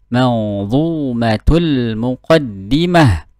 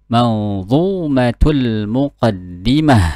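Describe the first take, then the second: Both takes have the same delivery.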